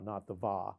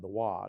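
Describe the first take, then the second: First: The syllable begins with a V sound. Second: The syllable begins with a W sound. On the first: The speaker calls it wrong. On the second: The speaker calls it right. "instead of the V, it's the W sound, the wa"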